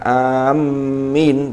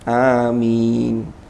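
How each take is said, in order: First: The m sound is doubled. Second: The m sound is single and light. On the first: The speaker calls it wrong. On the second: The speaker calls it right. "tapi amin, jadi mimnya takhfif"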